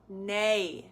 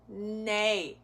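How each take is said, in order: The two takes are said the same way.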